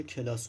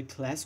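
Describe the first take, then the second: First: کلاس said the Persian way, as ke-las with two syllables; کلاس drawn out Persian style, kelas, with an open a; Persian pronunciation. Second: کلاس said the English way, as klas with a short flat a; کلاس as one quick syllable, klas, English style; English pronunciation. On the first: Teacher to students, contrasting English and Persian: کلاس pronounced kelas, the Persian way. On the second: Teacher to students, contrasting English and Persian: کلاس pronounced klas, the English way. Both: Shown as a demonstration.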